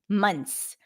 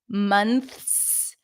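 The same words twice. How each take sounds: First: The TH sound is dropped before the S. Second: The TH sound is pronounced before the S. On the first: "would drop the T H here" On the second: "the proper pronunciation where you pronounce the full N T H S"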